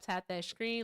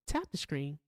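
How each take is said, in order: First: It is said in her normal voice. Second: It is said in a stern mom voice.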